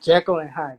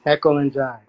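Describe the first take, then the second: First: "Jekyll" with a clear J, "Hyde" with an H; corrected name. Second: "Jekyll" said with an H sound, "Hekyll and Jyde"; fumbled name. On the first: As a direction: say "Jekyll and Hyde" properly, J then H. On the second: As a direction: trip over "Jekyll and Hyde", H for J. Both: Real, not acted. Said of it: "my bad".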